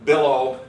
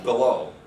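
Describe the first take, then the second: First: Slow, careful "billow" with a loud first syllable; stress on first syllable. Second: Slow, careful "below" with a strong final syllable; stress on second syllable. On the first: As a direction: hit the start of "billow", let the end fall away. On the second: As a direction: keep the start of "below" short, lean on the end. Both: Shown as a demonstration. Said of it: "except for the stress".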